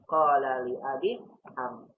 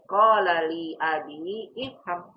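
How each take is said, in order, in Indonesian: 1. Huruf 'i' sebelum 'fham' dihilangkan dan disambung. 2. Vokal 'i' tambahan dibunyikan sebelum 'fham'. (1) "Cara bacanya ... begitu" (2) "Bukan dibaca ... Salah"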